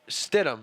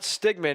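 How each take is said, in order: First: The name is said with a 'd' sound. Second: The name is said with a 'g' sound. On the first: The speaker calls it right. "it's Stidham" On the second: The speaker calls it wrong. "it's not Stigman"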